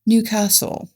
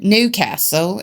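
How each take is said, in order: First: Newcastle in a higher, mock uppity English accent. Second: Newcastle in a mock Cockney accent. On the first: Showing co-host the other English accent, uppity and higher. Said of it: "or you have the uppity". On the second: Showing co-host English accents, mock Cockney Newcastle. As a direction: say Newcastle like a Cockney, a little higher. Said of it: "It depends on if you're a Cockney". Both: Shown as a demonstration.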